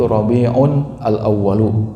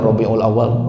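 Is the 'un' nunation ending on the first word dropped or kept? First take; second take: kept; dropped. First: The first word keeps its nunation ending 'un'. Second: The nunation is dropped and the words are linked. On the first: This is the proper Arabic form. The speaker calls it right. "yang benar itu" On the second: This is the simplified local form. The speaker calls it wrong. "orang Indonesia sulit"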